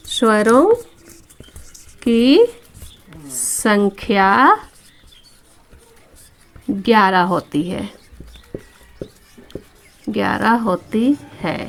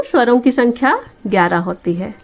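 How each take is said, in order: First: Very slow, long pauses between words; word-by-word dictation. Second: Said in the usual way. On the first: Shown as a demonstration. Teacher tells pupils the number of vowels, word-by-word dictation. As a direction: dictate it piece by piece, stretching word endings.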